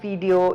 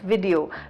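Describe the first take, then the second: First: The first syllable sounds like 'vee'. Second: The first syllable sounds like 'vih'. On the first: The speaker calls it wrong. "it's not video" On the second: The speaker calls it right. "V I, not V E E"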